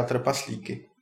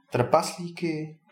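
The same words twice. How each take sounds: First: Said in the usual way. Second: Slow, higher echo question; taken aback. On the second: A narrator's reading. Ondřej hears the dragon eats dwarfs, taken aback. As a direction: draw the word out in raised disbelief. Ondřej echoes the alarming news.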